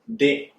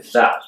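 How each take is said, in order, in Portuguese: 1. A palavra começa com um d forte. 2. A palavra começa com um th suave. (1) "que muitos falam de" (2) "a pronúncia correta é the"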